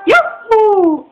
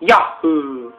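First: It is said in a high voice. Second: It is said in a deeper voice.

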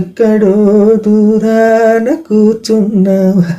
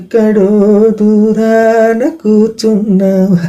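First: It is said with a small, despairing laugh. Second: It is said with a small, despairing laugh.

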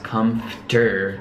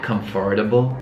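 First: The middle is squeezed into a short reduced form. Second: Every syllable is said as it is spelled. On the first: The speaker calls it right. "but it's pronounced comfter" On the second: The speaker calls it wrong. "It's spelled like comfortable"

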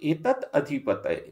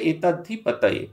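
First: The two words are said separately, without joining. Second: The two words are merged into one word. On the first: The speaker calls it wrong. "তাই যিনি পণ্ডিত তিনি বলছেন এতৎ অধিপতয়ে" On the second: The speaker calls it right. "এটা সন্ধি করলে এতদ্ধিপতয়ে"

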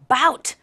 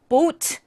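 First: The vowel is an 'ow' glide sound. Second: The vowel is a long 'oh' sound. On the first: "bout 이렇게 발음하시는데 no" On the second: "많이들 boat"

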